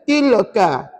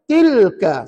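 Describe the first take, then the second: First: An extra vowel is inserted between l and k. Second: The l is closed directly before the k. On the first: The speaker calls it wrong. "Kalau ada anak cucu baca tilaka" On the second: The speaker calls it right. "kena baca tilka"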